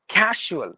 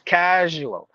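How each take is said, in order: First: The middle consonant is a voiceless 'sh' sound. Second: The middle consonant is a voiced 'zh' sound. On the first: The speaker calls it wrong. "We some we say casual as like like S H sound" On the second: The speaker calls it right. "We have to replace it with the Z sound"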